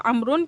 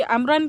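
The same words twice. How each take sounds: First: "عمرن" ending in -un, as amrun; changed to nominative ending. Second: "عمرن" ending in -an, as amran; accusative ending. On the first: Teacher swaps the case for students, "عمرن" ending -un. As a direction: say "عمرن" with a u sound before the final n. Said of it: "کی جگہ عمرن کر دوں". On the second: Teacher shows students the original case, "عمرن" ending -an. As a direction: say "عمرن" with a short a before the final n. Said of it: "عمرن کی جگہ عمرن کر دوں". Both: Shown as a demonstration.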